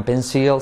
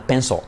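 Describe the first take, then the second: First: "pencil" with a clear I and light L; wrong PENCIL, "pénsil". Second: "pencil" with no I, "PEN-sol"; dark-L PENCIL. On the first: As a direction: say "pencil" as "PEN-sil". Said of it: "No vale con pencil". ("pencil" como "pénsil", con I clara) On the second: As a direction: finish "pencil" on a full dark L. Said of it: "no vale medias tintas". ("pencil" como "pénsol", con L fuerte) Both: Shown as a demonstration.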